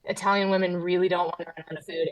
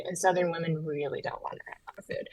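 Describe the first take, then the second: First: Said in the usual way. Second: Whispering. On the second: Pretend. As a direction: whisper it like a secret. Southern women, the hidden-rage side.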